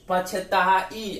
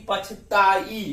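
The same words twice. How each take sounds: First: पछताई drawn out very slowly, the आई lengthened; teacher sounding out पछताई to isolate आई; slow syllable demo. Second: Said in the usual way. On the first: Shown as a demonstration. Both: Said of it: "आप अपने से उच्चारण कीजिए".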